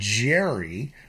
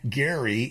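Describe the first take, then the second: First: It begins with a soft j sound. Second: It begins with a hard g sound. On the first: The speaker calls it wrong. "and not Jerry" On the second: The speaker calls it right. "his name was Eldridge Gerry"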